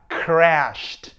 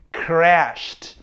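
No difference in how they are said.

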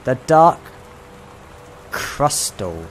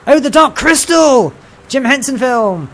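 First: Puzzled reading out. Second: High, loud burst of delight; excited recognition. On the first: Player deciphers an upside-down title, hesitant reading. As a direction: read it out haltingly, piece by piece. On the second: Player recognises a favourite film, high excited cry. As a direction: exclaim it as it suddenly clicks. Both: Real, not acted.

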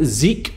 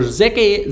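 First: Zeke said as one syllable, ZEEK; one-syllable pronunciation. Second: Zeke said in two syllables, ZEK-ay; two-syllable pronunciation. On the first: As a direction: say Zeke with a long "ee". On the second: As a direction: say Zeke with short "e", then "ay". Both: Shown as a demonstration. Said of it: "sorry if I'm mispronouncing that".

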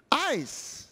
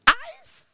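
First: Eyes. settled, falling and softer; firm statement. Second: Eyes? mit stark steigender, ungläubiger Frage; questioning rise. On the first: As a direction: answer Eyes. calmly with a falling close. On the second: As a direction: ask Eyes? in disbelief, rising steeply. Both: Shown as a demonstration.

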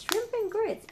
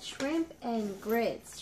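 First: Pitched up, delighted; excited repeat. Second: Slow reading. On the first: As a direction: say "Shrimp and grits" again, high and pleased. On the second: Reading treat name slowly. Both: Real, not acted.

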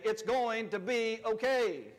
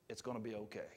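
First: Slow, firm church declaration; confident churchy affirmation; like you believe it. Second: Soft, hushed library murmur; timid library hush. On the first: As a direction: proclaim it like you mean it. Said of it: "like you're at church and you believe it". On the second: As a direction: say it meekly under your breath. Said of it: "not like you're at the library". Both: Shown as a demonstration.

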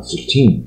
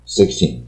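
First: Sixteen said with a rising tune, American style. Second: Sixteen said with a falling tune, British style. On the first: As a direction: let sixteen lift up at the end. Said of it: "如果十六声音要往上扬". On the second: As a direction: press sixteen down at the end. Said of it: "英国人…都是往下". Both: Shown as a demonstration.

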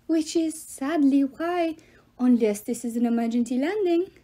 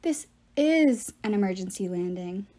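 First: Fake French accent. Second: "is" punched in contradiction; stress on IS. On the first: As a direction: draw out "sadly why" in a fake French accent. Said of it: "he had a French accent so bad". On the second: Piper answers the love god, stressing "is". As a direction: lean on "is" to insist it's true. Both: A narrator's reading.

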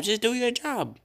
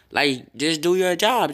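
First: Much higher, pleading repeat; exasperated. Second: Said in the usual way. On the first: Real, not acted. Streamer scolding the glitchy recording app, high exasperated repeat.

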